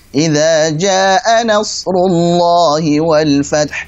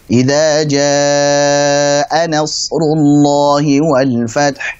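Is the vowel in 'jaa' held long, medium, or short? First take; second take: short; medium. First: The vowel in jaa is held two beats. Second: The vowel in jaa is held four beats. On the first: The speaker calls it wrong. "bacanya cuma dua" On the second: The speaker calls it right. "dibaca wajib empat harokat"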